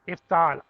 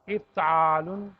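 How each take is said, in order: First: The word ends without the -un ending. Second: The word ends with a full -un ending. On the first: "लाम को वहां साइलेंट कर दें" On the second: "एक दो दफा कहें इफ्तालुन"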